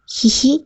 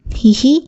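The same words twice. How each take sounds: First: High, soft gleeful hee-hee; gleeful giggle. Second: Short plain hee-hee giggle; a small amused laugh back; light giggle. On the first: Husband giggles gleefully after biting his wife's finger. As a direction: giggle with glee after the bite. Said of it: "కేరింతలు కొడుతూ నవ్వాడు". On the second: Wife giggles back at her husband, lightly. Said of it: "నవ్వింది Gauri". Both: A narrator's reading.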